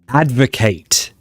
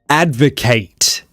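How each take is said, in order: First: It is pronounced the way the verb is. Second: It is pronounced the way the verb is.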